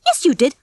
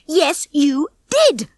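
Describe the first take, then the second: First: Higher, brisk contradiction; insistent retort. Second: Slow, high, emphatic shout. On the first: Ginger insists Rocky lied, brisk retort. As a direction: contradict firmly and quickly. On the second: Ginger escalates the quarrel with Rocky, shouting. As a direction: stretch out each word in anger. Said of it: "Ginger shouted". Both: A narrator's reading.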